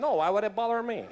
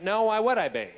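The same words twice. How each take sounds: First: Lightly mimicked Cuban accent. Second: Lightly camp, emphatic comeback; buddy's camp reply. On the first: Cuban friend replying to the actor, mock Cuban accent. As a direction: answer back with a put-on Cuban accent. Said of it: "who's a diehard Cubano". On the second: Retold or imitated. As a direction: hit "why" louder in a mildly camp voice. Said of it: "And he went".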